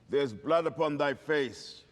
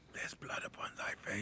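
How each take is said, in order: First: It is whispered loudly enough to carry. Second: It is whispered very quietly.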